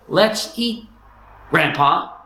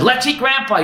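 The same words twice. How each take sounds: First: There is a pause before grandpa. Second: It is said with no pause before grandpa.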